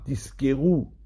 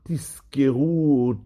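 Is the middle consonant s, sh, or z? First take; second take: s; z. First: The middle consonant is an s. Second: The middle consonant is a clear z. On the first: You will receive a reward. The speaker calls it wrong. "du mot Sahara" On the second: You will remember. The speaker calls it right. "Il faut bien marquer le Zayin de Tizkeru"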